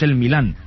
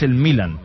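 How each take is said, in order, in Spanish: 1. El acento está en la última sílaba. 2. El acento está en la primera sílaba.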